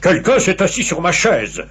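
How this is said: It is said in a very deep, big voice.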